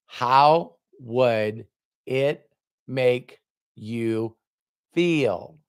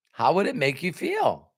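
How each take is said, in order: First: Very slow, word by word; drawn-out question. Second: Said in the usual way. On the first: Retold or imitated. Mentor asking Robert to imagine, very slow and deliberate. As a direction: space out each word for weight.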